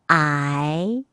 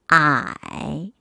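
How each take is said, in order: First: The pitch rises from middle to high. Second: The pitch dips low, then rises.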